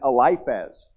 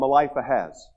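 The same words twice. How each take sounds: First: The name is said without any added sound. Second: The name is said with an extra added sound. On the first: The speaker calls it right. "It's Eliphaz" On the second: The speaker calls it wrong. "I added an extra word in there, or an extra letter in there"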